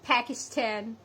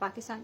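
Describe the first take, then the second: First: The p is breathy, with a puff of air. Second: The p is plain, without a puff of air. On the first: "फी की आवाज आनी चाहिए" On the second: "हम कहते हैं"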